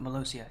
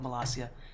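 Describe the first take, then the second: First: The second syllable has an 'oh' vowel. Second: The second syllable has an 'ah' vowel. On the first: The speaker calls it wrong. "I keep calling it Malosia. It's not that" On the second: The speaker calls it right. "It's called Malasia"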